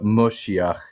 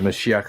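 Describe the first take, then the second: First: The first vowel is an O sound. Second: The first vowel is an A sound. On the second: This is the usual form.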